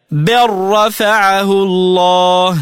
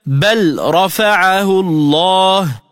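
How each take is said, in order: First: Slow "بل رفعه الله" as bar-rafa'ahu llah; full idgham. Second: Slow "بل رفعه الله" with a distinct L ending بل; unassimilated lam. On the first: Tajweed teacher showing the merger, "بل رفعه الله" chanted with RR. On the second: Tajweed teacher giving the example, L sounded in "بل رفعه الله". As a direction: chant "بل رفعه الله", keeping L and R apart. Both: Shown as a demonstration. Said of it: "تلفظ هكذا".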